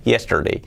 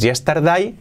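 First: "Yesterday" as "YES-ter-day", falling; correct vowels. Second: "yesterday" said as "yes-tar-die", rising; wrong vowels. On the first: Teacher gives the correct form, "Yesterday" as "YES-ter-day". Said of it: "No es yesterday". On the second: Teacher mimics the mistake, "yesterday" as "yestardai". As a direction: open "yesterday" into "yestar-DAI". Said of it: "No es". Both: Shown as a demonstration.

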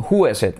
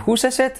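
First: Said in the usual way. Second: "whose is it" with an audible S after "who"; clearly sounded S in "whose"; added S sound. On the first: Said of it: "whose is it es una S". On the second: Shown as a demonstration. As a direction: let the S in "whose" link into "is it". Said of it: "es una S".

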